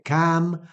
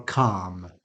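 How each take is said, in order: First: Calm said as KAM; short-vowel variant. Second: Calm said as KAHM; long-vowel variant. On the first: Teacher offering a choice, short front vowel. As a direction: say calm with the a of match. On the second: Teacher offering a choice, long back vowel. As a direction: say calm with the ah of arm. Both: Shown as a demonstration. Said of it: "You can say calm or calm".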